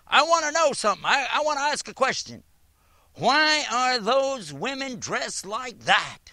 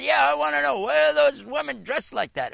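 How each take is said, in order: First: High, loud mocking imitation of a demanding woman; hammed-up imitation of an angry questioner; harsh woman's challenge. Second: High, loud imitation of a pushy questioner; mock-harsh woman repeating her demand. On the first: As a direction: act out her rude demand, pitched up. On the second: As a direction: throw the question at him, pitched up and loud. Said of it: "It was a very harsh question".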